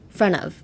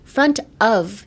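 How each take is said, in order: First: The words are linked, T dropped, 'of' reduced to 'a'. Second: The words are separate, with the T and full 'of'. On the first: The speaker calls it right. "drop the T and change the O F, the of, to A" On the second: The speaker calls it wrong. "じゃなくて"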